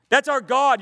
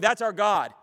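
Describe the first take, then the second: First: That's punched out louder, rising in fervor; louder, emphatic. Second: Said in the usual way. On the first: Real, not acted. Preacher to the study, repeating with more force, louder. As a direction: proclaim That's with full force.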